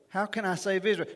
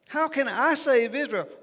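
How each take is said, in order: First: It is said flatly, with little emotion. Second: It is said with strong, anxious emotion. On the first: The speaker calls it wrong. "we read this with almost no emotion" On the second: The speaker calls it right. "this is filled with emotion"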